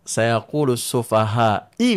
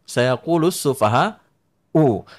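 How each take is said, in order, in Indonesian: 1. Kata terakhir berakhir dengan vokal i. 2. Kata terakhir berakhir dengan vokal u. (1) "tidak mungkin i" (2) "fa'il itu harus u"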